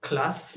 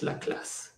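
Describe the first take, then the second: First: Said in the usual way. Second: Breathy whispered la classe, savoured with a touch of snobbery; hushed, unvoiced "la classe" said with mock elegance; posh whispered aside. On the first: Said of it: "en style". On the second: Shown as a demonstration. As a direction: breathe "la classe" as if it were something refined. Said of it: "en style, classe".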